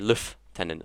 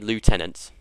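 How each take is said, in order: First: It is said the British way, like lef-tenant. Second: It is said the American way, like loo-tenant. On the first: "I'm British, We say lieutenant" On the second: "We we don't say lieutenant"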